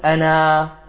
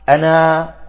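First: The final vowel is long, ending the phrase. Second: The final vowel is long, ending the phrase.

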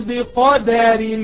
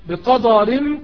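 First: The d sound is light and thin. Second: The d sound is heavy and emphatic. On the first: The speaker calls it right. "فالدال مرققة" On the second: The speaker calls it wrong. "بقدر غلط"

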